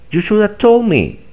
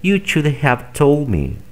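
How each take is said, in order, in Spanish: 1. La palabra have se reduce a una vocal. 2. La palabra have se pronuncia completa. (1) "Simplemente di" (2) "En lugar de decir"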